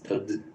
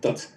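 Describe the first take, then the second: First: The word ends in a voiced d sound. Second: The word ends in an unvoiced t sound. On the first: "the d of dhyana is voiced, and that affects the final consonant that precedes" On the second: "ka of kshana is unvoiced"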